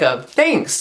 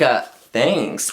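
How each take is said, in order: First: The thanks sounds sincere and genuine. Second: The thanks sounds insincere and dismissive.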